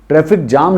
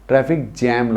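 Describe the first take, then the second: First: The vowel in 'jam' sounds like 'father'. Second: The vowel in 'jam' sounds like 'cat'. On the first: The speaker calls it wrong. "ट्रैफिक जाम नहीं लगता" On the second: The speaker calls it right. "ट्रैफिक जैम लगता है"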